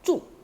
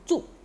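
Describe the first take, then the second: The two takes are said the same way.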